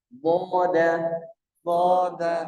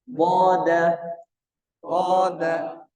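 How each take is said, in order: The two takes are said the same way.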